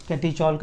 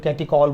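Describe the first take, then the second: First: Catechol with a "ch" sound, kat-ee-CHOL; ch pronunciation. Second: Catechol with a hard k, kat-ee-KOL; alternative k pronunciation. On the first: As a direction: say catechol with ch as in chair. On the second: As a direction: say catechol with k in place of ch. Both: Shown as a demonstration. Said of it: "अलग तरीका बोलने का".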